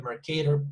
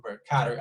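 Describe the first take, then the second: First: "Mercator" with the middle vowel as in "Kate"; "Mercator" rhyming with "cater"; long A variant. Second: "Mercator" with the middle vowel as in "cat"; "Mercator" with an open "ka" in the middle; short A variant. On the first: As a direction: say "Mercator" as mer-KAY-ter. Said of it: "or Mercator, I don't know". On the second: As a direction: say "Mercator" as mer-KA-ter, short A. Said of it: "I don't know, Mercator projection". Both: Shown as a demonstration.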